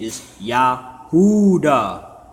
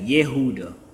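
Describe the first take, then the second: First: The first vowel sounds like 'ah'. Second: The first vowel sounds like 'eh'. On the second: "Some people say Yehuda"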